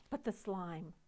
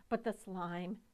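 The two takes are said the same way.

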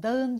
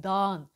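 First: Dağın with a voiced g; g pronounced. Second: Dağın as daan, vowel stretched; dağın with a long a, no g; lengthened vowel. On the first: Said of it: "Dağın değil". (dağın ğ sesli) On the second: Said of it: "yumuşak G kuralı var". (dağın uzun a ile) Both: Shown as a demonstration.

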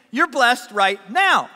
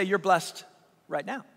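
First: Slow, punchy proclamation; emphatic declaration. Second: Low, soft, tender delivery; hushed assurance. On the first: Preacher voicing Jesus to the congregation, emphatic declaration. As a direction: proclaim it firmly, word by word. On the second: Preacher voicing Jesus to hurting listeners, hushed assurance. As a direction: drop low and say it softly. Same words, gently, to the suffering. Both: Retold or imitated.

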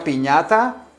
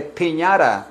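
First: "piñata" with crisp Spanish t; Spanish "piñata", clean t; Spanish pronunciation. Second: "piñata" as pin-YAH-ra, flapped t; stretched anglicized "piñata"; English pronunciation. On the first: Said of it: "se dice piñata". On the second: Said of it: "se dice". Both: Shown as a demonstration.

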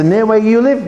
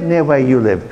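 First: High querying "Near where you live?"; querying echo. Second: Low, falling "Near where you live."; confirming statement. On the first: Teacher checks boy's answer, high querying "Near where you live?". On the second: Teacher settles the answer, low falling "Near where you live.". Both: Retold or imitated.

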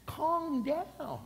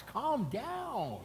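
First: Calm pitched up high and drawn out; higher calm down. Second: Said in the usual way. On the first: Shown as a demonstration. Pastor soothing an imagined member, Calm high. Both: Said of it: "Oh my gosh".

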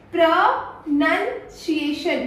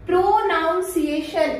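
First: "प्रनंसिएशन" slowly split, "nun" in the middle; pro, NUN, si-ation for "प्रनंसिएशन"; correct pronunciation. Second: "प्रोनाउंसिएशन" with "noun" in the middle; slow pro-NOUN-si-ation for "प्रोनाउंसिएशन"; common mispronunciation. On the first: Trainer correcting learners, correct pronunciation. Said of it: "इसे हम लोग बोलते हैं". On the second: Trainer showing learners' habit, mispronunciation. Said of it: "यही बोलते हो". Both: Shown as a demonstration.

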